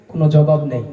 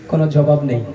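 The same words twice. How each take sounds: The two takes are said the same way.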